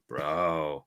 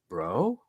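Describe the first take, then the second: First: It is said with a flat, matter-of-fact tone. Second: It is said with a curious, questioning tone.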